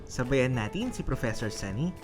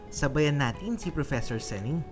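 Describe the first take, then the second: Both takes have the same delivery.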